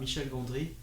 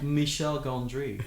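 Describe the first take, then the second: First: The name is said with a French accent. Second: The name is said with an English accent.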